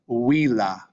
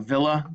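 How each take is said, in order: First: The word begins with a W sound. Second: The word begins with a V sound. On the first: This is the Latin way of saying it. "it would be pronounced villa" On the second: This is the English way of saying it. "we see this word in English"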